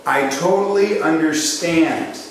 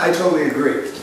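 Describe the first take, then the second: First: "I totally understand" slow and deliberate, leaning on "totally"; model phrasing. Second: Said in the usual way. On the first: Shown as a demonstration. Coach models the right phrase to salespeople, slow and stressed. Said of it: "jot this down for yourself".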